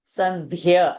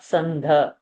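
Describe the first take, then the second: First: A y sound follows the aspirated dh. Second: No y sound follows the dh. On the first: The speaker calls it right. "Dhya should also happen" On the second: The speaker calls it wrong. "not sandha"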